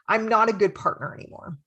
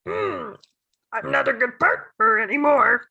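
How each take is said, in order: First: It is said in her normal voice. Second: It is said in a Yoda impression.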